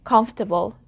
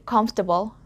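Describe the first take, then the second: First: A middle vowel sound is dropped from the word. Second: The same.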